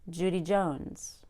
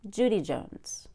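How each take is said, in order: First: The stress falls on the last name. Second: The stress falls on the first name. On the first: The speaker calls it right. "I say" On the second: The speaker calls it wrong. "I wouldn't say"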